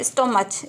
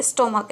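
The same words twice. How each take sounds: First: स्टोमच read with a ch sound at the end, as students wrongly read it; wrong reading with a final ch; spelling pronunciation. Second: स्टोमक with a hard k sound at the end; right reading ending in k; correct pronunciation. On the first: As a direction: say स्टोमच the way it is spelt, ending in ch. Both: Shown as a demonstration. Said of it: "लेकिन इसका उच्चारण क्या है?".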